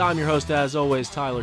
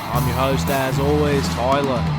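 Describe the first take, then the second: First: It is said in a plain American accent. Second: It is said in a put-on Australian accent.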